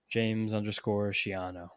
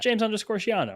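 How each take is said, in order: First: It is said flatly with low energy. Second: It is said livelier with more energy. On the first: The speaker calls it wrong. "You sounded sad there. That was a little depressing" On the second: The speaker calls it right. "Bring a little energy"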